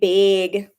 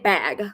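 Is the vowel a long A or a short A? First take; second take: long A; short A. First: The vowel is a long A sound. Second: The vowel is a plain short A. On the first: This is how Minnesotans say it. "We have long A sounds, like big. We say big" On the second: This is how people elsewhere say it. "We don't say bag"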